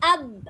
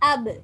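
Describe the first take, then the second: First: The lips close and stay shut on b. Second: The b is released with a slight bounce. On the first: "கல்கலா செய்யாம ஓதினா எப்படி நாங்க உச்சரிக்கிற அப் அப் என்று உச்சரிக்கிற" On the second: "அபு கல்கலாவால கொஞ்சம் தொறப்படுற"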